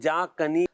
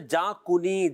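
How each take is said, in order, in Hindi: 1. 'jaa' के बाद वाले अक्षर में 'a' स्वर है। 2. 'jaa' के बाद वाले अक्षर में 'u' स्वर है।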